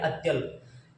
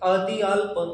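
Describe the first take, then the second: First: The half consonant is joined into one cluster. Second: The half consonant is said as a full syllable.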